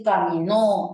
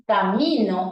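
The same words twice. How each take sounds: First: "caminó" with a drawn-out, stressed NÓ; ca-mi-NÓ, accent at the end; stress on last syllable. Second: "camino" with the stress on MI; ca-MI-no, accent in the middle; stress on middle syllable. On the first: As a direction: stretch and hit the end of "caminó". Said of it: "ha cambiado de presente a pasado". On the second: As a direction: lean on MI in "camino". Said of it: "no significa lo mismo que decir". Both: Shown as a demonstration.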